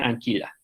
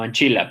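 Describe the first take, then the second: First: The middle consonant sounds like a hard 'k'. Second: The middle consonant sounds like 'ch'. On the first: The speaker calls it wrong. "la pronunciación germánica" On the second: The speaker calls it right. "intentemos pronunciar eclesiásticamente"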